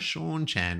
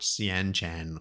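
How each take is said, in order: First: The first syllable is a single beat. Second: The first syllable splits into two beats. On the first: The speaker calls it right. "I looked up the pronunciation" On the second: The speaker calls it wrong. "not Sian Chan"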